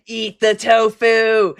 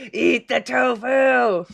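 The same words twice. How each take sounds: First: Slow, commanding villain voice; hammed-up evil command; mad scientist. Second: Slow evil yell; hammed-up villain shouting the command; mad scientist shout. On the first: Villain commanding viewer to eat.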